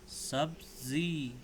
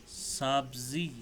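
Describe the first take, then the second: The two takes are said the same way.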